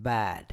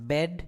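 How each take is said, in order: First: "bad" drawn out with an open "a", low and falling; the right word, long low "baad"; long vowel. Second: Brief "bed", vowel as in "red"; short vowel. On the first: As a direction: stretch bad to "baaad". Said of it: "it is". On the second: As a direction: say bed short, as the word to avoid. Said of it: "It is not". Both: Shown as a demonstration.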